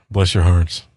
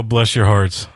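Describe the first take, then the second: First: Lower, condescending "bless your hearts"; sarcastic southern pity, dropped low; patronizing sigh of pity; mock pity. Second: Said in the usual way. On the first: Real, not acted.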